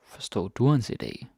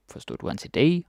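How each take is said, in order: First: "du" stressed, the end falling. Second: "idé" stressed with a high rising end; stress moved to IDÉ. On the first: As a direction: lean on "du", as in did YOU. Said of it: "I put this stress on du". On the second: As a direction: lift "idé", passing lightly over du. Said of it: "you can change the stress". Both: Shown as a demonstration.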